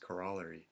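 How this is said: It is said with a Canadian pronunciation.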